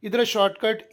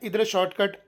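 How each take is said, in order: Both takes have the same delivery.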